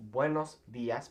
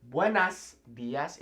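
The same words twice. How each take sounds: First: "buenos días" with the masculine ending -os; the corrected "buenos días"; correct form buenos días. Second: "buenas días" said with the wrong feminine ending -as; the learner's error "buenas días"; wrong form buenas días. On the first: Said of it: "it's buenos días because". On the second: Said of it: "it's not buenas días". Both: Shown as a demonstration.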